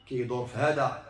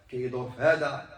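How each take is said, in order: Both takes have the same delivery.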